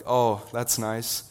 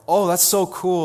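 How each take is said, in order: First: Slow, polite but cool; unimpressed reply. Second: High, loud mock gush; gushing excitement. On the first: Retold or imitated. Classmate hearing he'll be a pastor, slow lukewarm brush-off. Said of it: "one that I usually get's like". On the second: Classmate hearing he'll be a pastor, high loud gushing. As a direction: imitate a classmate gushing over the news. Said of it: "two responses that go like".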